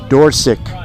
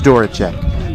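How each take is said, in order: First: The name sounds like 'door' plus 'sick'. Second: The name is said with three syllables. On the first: The speaker calls it right. "as in the hinged opening to your house" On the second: The speaker calls it wrong. "That's wrong"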